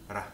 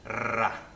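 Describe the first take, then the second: First: The r is a single quick tongue flap. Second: The r is a rolled, trilled sound. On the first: "Ra is a flap. Your tongue flicks the top of your gums" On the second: "It also rolls sometimes, just as it does in Spanish"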